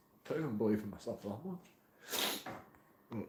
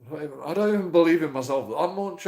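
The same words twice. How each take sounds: First: Much softer and slower, deflated; quiet, slow and dejected. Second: Said in the usual way. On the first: Real, not acted. Vlogger admitting his doubts to viewers, dejected murmur. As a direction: let it sink, almost to yourself. Repeats the line twice.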